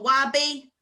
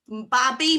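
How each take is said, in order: First: The word begins with a W sound. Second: The word begins with a B sound.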